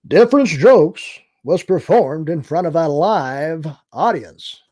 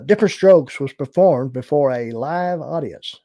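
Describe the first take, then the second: First: It is said in a booming announcer voice. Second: It is said in a plain, ordinary voice.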